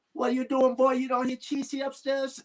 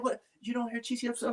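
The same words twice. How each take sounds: First: High-pitched scolding mom impression, voice pushed well up; imitating his mom. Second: High but softer mom voice, held back; toned-down mom imitation. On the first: Son mimics his mom scolding him over the crying baby, high-pitched mock scold. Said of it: "She says". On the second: Son repeats mom's scolding after deciding to tone it down, softer high mock scold. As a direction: repeat her line softly, still pitched up. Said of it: "She said".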